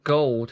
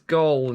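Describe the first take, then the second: First: The final D sound is clearly pronounced. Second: The final D sound is left off. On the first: This is the expected full pronunciation. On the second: This is how the toy's voice says it.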